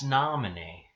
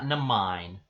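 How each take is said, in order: First: The name is said as 'Nominee'. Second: The name is said as 'Namine'. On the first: The speaker calls it right. "it's Nominee" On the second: The speaker calls it wrong. "not Namine"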